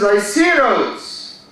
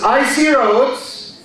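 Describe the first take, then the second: First: "I see roads" with I stressed, run together as "icy"; weight on "I", then "see roads" lightly; slow demo stressing "I". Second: "I see roads" with SEE stressed and raised; slow demo with the weight on "see". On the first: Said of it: "the stress is on the first syllable". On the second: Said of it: "Here we changed the stress". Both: Shown as a demonstration.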